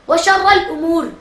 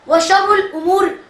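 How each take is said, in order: First: The vowel after 'sharr' is an 'a' sound. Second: The vowel after 'sharr' is a 'u' sound. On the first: The speaker calls it right. "बल्कि जबर के साथ है" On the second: The speaker calls it wrong. "पेश के साथ नहीं"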